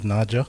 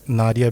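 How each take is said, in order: First: The middle consonant is a J sound. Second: The middle consonant is a plain D sound. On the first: "like it becomes a J" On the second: "the pronunciations of the D"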